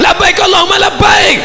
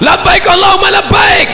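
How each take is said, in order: The two takes are said the same way.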